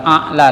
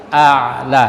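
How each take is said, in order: First: A'la with an abrupt glottal stop; hamzah for ain. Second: A'la with a long voiced ain; throat ain. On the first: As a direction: break a'la with a plain catch. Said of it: "bukan a'la tapi a'la". (a'la salah, ain jadi hamzah) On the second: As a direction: squeeze the throat mid-word in a'la. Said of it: "hamzah dengan ain". (a'la dengan ain di tengah) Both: Shown as a demonstration.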